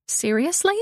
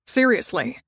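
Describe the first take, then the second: First: Rising, disbelieving "Seriously?"; "Seriously?" asked higher, with a rise at the end; surprised question. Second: Said in the usual way. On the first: Acted. Surprised question answered by echo.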